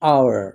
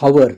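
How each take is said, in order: First: The word begins with a vowel sound. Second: The word begins with a consonant sound. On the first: The speaker calls it right. "it is hour ... as these are vowel sounds" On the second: The speaker calls it wrong. "It is not hour"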